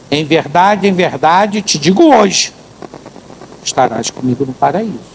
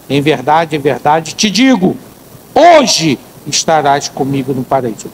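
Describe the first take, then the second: First: The pause comes after 'hoje'. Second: The pause comes before 'hoje'.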